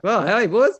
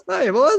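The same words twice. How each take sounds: First: Put-on high, loud cheery call of "boys"; excited greeting. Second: Put-on much higher, louder "boys", rising; very excited greeting. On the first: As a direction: call out "hey, boys" happily, rising. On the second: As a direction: repeat "hey, boys" even higher and louder. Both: Greeting new mates on arrival.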